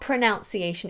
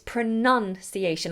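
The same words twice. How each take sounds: First: The second syllable sounds like 'nown'. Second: The second syllable sounds like 'nun'. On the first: The speaker calls it wrong. "It's not pronunciation" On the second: The speaker calls it right. "it's pronunciation, like a nun"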